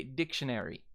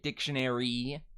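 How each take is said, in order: First: DICTIONARY ending in short 'ih'; lax final vowel. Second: DICTIONARY ending in a long 'ee'; tense final vowel. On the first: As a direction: end DICTIONARY on a relaxed 'ih'. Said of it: "It's the I kind of at the end". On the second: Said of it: "You don't say it dictionary". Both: Shown as a demonstration.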